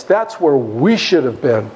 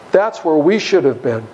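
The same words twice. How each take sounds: First: "we" given weight, said low and slow; stress on we. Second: "we" leaned on again, a little lighter; stress on we repeated. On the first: Preacher presses the point on his congregation, stressing we. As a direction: lean on "we". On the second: Preacher repeats the point to his listeners, stressing we. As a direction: repeat it, leaning on "we". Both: Shown as a demonstration.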